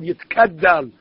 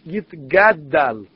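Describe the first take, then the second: First: The consonant after 'Yit' is a voiceless k. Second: The consonant after 'Yit' is a voiced g. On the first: The speaker calls it wrong. "Not like you hear some of the Hazanim or the people" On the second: The speaker calls it right. "one has to be careful in pronouncing the Kaddish"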